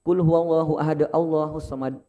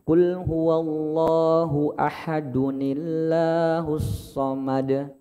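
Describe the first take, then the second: First: Ahad ends plainly, with no linking n sound. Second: Ahad joins the next word through an added 'nun-i'. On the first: The speaker calls it wrong. "Bukan kayak gitu" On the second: The speaker calls it right. "Tapi yang tepat adalah kul huwallahu ahadunillah"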